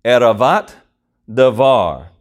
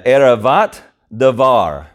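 First: "Eravat", pause, "davar": each word said separately with a pause between; Hebrew word by word. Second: "eravat davar" said as one flowing phrase, Hebrew-style. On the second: Pastor introducing the Hebrew phrase to the congregation, said smoothly. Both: Shown as a demonstration. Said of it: "uh, eravat davar".

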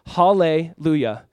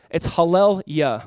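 First: Hallelujah drawn out slowly, every syllable clear; slow spoken hallelujah. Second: Hallel-yah said slowly as two parts, hallel then yah; hallel-yah split. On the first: Preacher slowly saying Hallelujah to the church, drawn out. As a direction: say Hallelujah slowly, as the familiar word. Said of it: "I love the word hallelujah". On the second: Preacher teaching the church hallel-yah, slowly split in two. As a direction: break hallel-yah into praise and Lord. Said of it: "Hallel is praise, yah is the Lord". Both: Shown as a demonstration.

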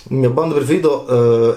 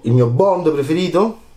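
First: Said in the usual way. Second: "Il mio Bond preferito?" asked with a rise on "Bond"; teasing question. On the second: Shown as a demonstration. Host teasing viewers about his favourite Bond, rising question. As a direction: tease the audience, lifting "Bond" upward. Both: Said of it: "qual è il mio Bond preferito?".

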